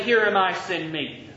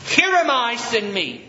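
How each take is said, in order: First: Tossed-off, careless Here am I, fading on send me; flippant. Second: Raised, bold declaration of Here am I. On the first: Pastor mocking a careless volunteer, offhand. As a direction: throw it away like it costs nothing. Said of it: "Just flippantly". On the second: Pastor showing Isaiah's bold offer, raised and firm. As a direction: say it like you truly volunteer. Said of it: "That's a bold statement". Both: Shown as a demonstration.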